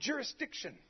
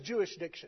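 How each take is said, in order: First: The word is said in its standard form. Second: The word is said like 'Jewish diction'.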